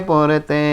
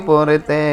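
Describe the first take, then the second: The two takes are said the same way.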